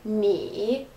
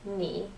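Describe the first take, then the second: First: The pitch dips low and then rises again. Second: The pitch dips low and stays low. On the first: "instead of ni" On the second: "it dips down but does not come back up"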